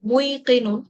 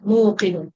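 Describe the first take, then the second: First: An extra 'i' vowel comes before the k. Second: The k follows 'mu' directly, with no extra vowel. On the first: The speaker calls it wrong. "মুইকিনুন অবশ্যই আমাদের আহ স্মুথ না" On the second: The speaker calls it right. "আমরা এটাকে বানাবো হচ্ছে মুকিন"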